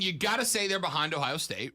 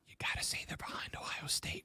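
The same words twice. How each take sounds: First: The sentence is spoken at a louder volume. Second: The sentence is spoken at a quieter volume. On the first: "Don't say that too loudly" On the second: "I said it quieter"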